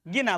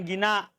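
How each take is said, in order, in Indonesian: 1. Kata ini berakhir dengan vokal pendek terbuka. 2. Kata ini berakhir dengan vokal panjang dan hamzah. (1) "Gina bukan gina pakai hamzah" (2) "bukan gina pakai hamzah"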